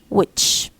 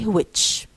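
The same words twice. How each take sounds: First: It begins with a plain w, no h. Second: It begins with a breathy h before the w. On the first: The speaker calls it right. "no ha" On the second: The speaker calls it wrong. "don't say which"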